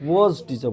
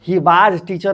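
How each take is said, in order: First: "was" as "voz", rounded vowel; softer, lower model of "was" as "woz"; correct pronunciation. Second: "was" mispronounced as "vaaj", long open vowel; wrong pronunciation. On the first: Teacher telling students what to say, correct pronunciation. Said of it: "was teacher बोलो". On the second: Teacher showing what students must not say, wrong pronunciation. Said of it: "he was teacher नहीं बोलोगे". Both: Shown as a demonstration.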